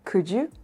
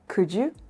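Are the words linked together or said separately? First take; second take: linked; linked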